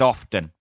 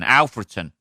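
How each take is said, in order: First: The name is said with two syllables. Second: The name is said with three syllables. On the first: It is the way locals say it. "But it's pronounced often" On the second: It follows the spelling. "It's spelled A L F R E T O N"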